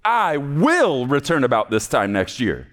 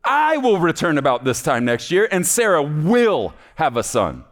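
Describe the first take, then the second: First: Said in the usual way. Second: "I" lifted and pressed, then "will return" falls; God stressing who makes the promise. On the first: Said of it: "the way I think he said it". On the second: Acted. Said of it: "This is God saying".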